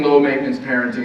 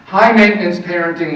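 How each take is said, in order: First: LOW said lower and flatter; stress on LOW. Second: HIGH lifted and louder; stress on HIGH. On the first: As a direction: drop down on the word low. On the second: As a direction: punch the word High up high. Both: Shown as a demonstration.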